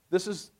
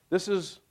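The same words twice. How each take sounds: The two takes are said the same way.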